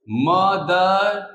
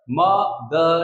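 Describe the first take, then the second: First: "मदर" stretched but joined, म-दर; drawn-out syllables. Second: "मदर" broken as म, दर; split in two. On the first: Teacher giving a two-syllable example, "मदर" slowly drawn out. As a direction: hold each half of "मदर" without a break. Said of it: "sound दो टुकड़ों में आए". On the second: Teacher showing two pieces of sound, "मदर" syllable by syllable. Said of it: "दो टुकड़ों में आवाज आ रही है". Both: Shown as a demonstration.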